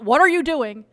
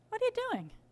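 First: It sounds accusing and judgmental. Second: It sounds gentle and genuinely curious.

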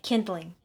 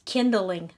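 First: The first syllable sounds like 'kin'. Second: The first syllable sounds like 'kind'. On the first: "That's how I say it" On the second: "the way I've heard it pronounced is kindling. ... a Kindle is an ebook"

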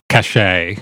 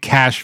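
First: The word is said with two syllables. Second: The word is said with one syllable. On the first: The speaker calls it wrong. "I've always said cachet. But I believe that's wrong" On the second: The speaker calls it right. "I think cash might be correct"

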